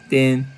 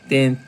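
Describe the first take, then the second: The two takes are said the same way.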